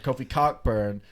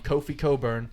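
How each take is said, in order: First: The surname is said with a clear k sound. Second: The surname is said without a k sound. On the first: This follows the spelling rather than the player's own way. "but I'm going to say Cockburn" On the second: This is how the player himself says it. "He is pronouncing it Coburn"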